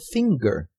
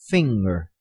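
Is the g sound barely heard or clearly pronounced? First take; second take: clearly pronounced; barely heard. First: The g sound is clearly pronounced. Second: The g sound is barely heard. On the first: The speaker calls it wrong. "temos a tendência de dizer finger como finger" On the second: The speaker calls it right. "o som da letra G não aparece explicitamente"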